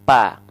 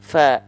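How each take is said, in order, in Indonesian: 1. Kedua bibir menutup dan menghentikan hembusan napas. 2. Hembusan napas keluar lewat celah antara gigi dan bibir bawah. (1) "yang nempel bibir atas dan bibir bawah, pasti dia tidak akan mengalirkan nafas" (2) "ujung gigi seri atas kita nih disentuhkan dengan bibir bawah bagian dalam"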